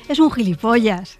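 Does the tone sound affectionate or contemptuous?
affectionate. It is said with a fond, affectionate tone. The person is endearingly foolish. "en el segundo pues puedo estar hablando de Marcelo Mastroianni"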